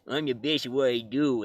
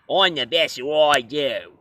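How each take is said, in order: First: It is spoken in a Canadian accent. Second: It is spoken in an Australian accent. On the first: "even though he's Canadian, it'd be kind of funny if we heard Wolverine sound like this" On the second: "give Wolverine an Australian accent. I mean, he sounded more like this"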